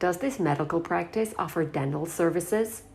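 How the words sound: It is spoken in an American accent. "So I did this one again in American"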